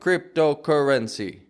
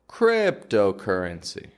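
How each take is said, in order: First: The word is equally strong all the way through. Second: The word is strongest at the start, then fades. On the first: The speaker calls it wrong. "strong all the way through like cryptocurrency" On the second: The speaker calls it right. "it's strongest in the crypt part"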